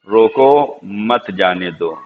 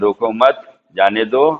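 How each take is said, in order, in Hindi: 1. विराम पहले शब्द के बाद आता है। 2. विराम दूसरे शब्द के बाद आता है। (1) "रोको का मतलब अगर यहाँ पे हम स्टॉप करेंगे, रुकेंगे" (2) "इसका मतलब यह है कि इसे रोकना नहीं, इसे जाने दो"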